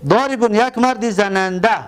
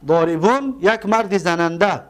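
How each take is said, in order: Both takes have the same delivery.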